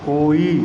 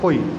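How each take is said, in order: First: Both vowels are held long. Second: Both vowels are clipped short. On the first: It is read as ordinary Hindi. "जब हिंदी में पढ़ेंगे तो बोलेंगे कोई" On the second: It is read to fit the couplet's meter. "कोई यानी दो छोटी छोटी मात्राएं निकल रही हैं इसमें"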